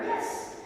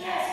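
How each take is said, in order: First: It is said softly and quietly. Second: It is said loudly and excitedly.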